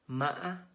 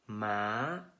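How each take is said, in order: First: The pitch is high and broken. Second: The pitch is high and rising. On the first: "With high broken tones" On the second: "With high rising"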